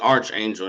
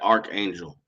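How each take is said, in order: First: The first syllable sounds like 'arch'. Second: The first syllable sounds like 'ark'. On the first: The speaker calls it right. "it's actually archangel, That's like the arch uh, over a door" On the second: The speaker calls it wrong. "not archangel"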